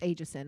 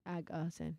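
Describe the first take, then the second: First: The first syllable sounds like 'ayg'. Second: The first syllable sounds like 'ag'. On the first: The speaker calls it wrong. "a lot of people think it's Aegison" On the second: The speaker calls it right. "but it's the ag. It's aga"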